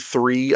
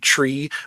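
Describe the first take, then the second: First: The word begins with a th sound. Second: The word begins with a plain t sound. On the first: "I don't say three" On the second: "I say tree. It's the Jamaican accent too"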